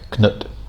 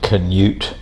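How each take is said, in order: First: The name is said with one syllable. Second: The name is said with two syllables. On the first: This is the original Danish or Norse form of the name. "Danish pronunciation or Norse pronunciation is more like Knut" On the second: This is the usual English form of the name. "usually in English called Canute"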